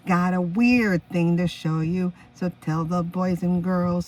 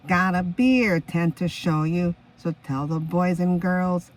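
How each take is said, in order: First: "weird thing" said slowly and clearly; slow, careful "weird thing to show you"; correct lyric. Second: "beer tent" sung out slowly as the misheard words; slow, deliberate "beer tent" for "weird thing"; misheard lyric. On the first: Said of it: "the correct lyrics is". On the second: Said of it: "The Miss Heard lyric is". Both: Shown as a demonstration.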